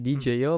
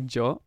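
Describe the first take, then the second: First: The name is spoken as separate letters D, J, O. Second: The name is spoken as one syllable, Joe. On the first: The speaker calls it wrong. "non è DJ O" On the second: The speaker calls it right. "ma è Joe"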